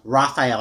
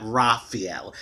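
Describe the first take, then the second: First: "Raphael" as rah-fy-EL, the French way. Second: "Raphael" as rah-fee-EL, the Spanish way. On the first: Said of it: "I hope I said it the French way". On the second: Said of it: "That's the Spanish way". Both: Shown as a demonstration.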